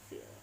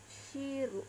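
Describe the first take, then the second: First: It is said English-style, ending in an l. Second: It is said Japanese-style, ending in ru.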